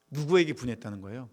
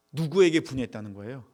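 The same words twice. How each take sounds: The two takes are said the same way.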